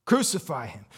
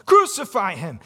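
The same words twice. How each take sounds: First: Said in the usual way. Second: Raised, louder crucify him; crowd shouting. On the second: Retold or imitated. The crowd demanding crucifixion, shouting. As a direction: build the chant up to a shout. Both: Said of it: "And he said".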